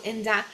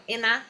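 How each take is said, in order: First: "enda" with the D sounded after N; full pronunciation. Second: "ena" with the D dropped after N; reduced pronunciation. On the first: Teacher contrasts with the fast form, D sounded. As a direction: keep the D in "enda". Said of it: "ele fala enda". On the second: Teacher shows the usual fast form, D dropped. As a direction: drop the D, saying "ena". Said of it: "normalmente viria ena". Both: Shown as a demonstration.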